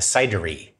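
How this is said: The word is said with an English pronunciation. The speaker calls it wrong. "which is how you would say it in English"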